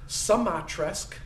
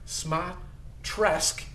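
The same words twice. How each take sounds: First: The name is said with extra syllables added. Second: The name is said without added syllables. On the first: The speaker calls it wrong. "people like to add syllables to my name, so it's variously been mispronounced" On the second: The speaker calls it right. "is the proper pronunciation"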